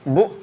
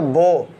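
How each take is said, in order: First: The vowel is cut off abruptly. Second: The vowel sounds like o. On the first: "तो हमने झटका दिया" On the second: "मजहूल"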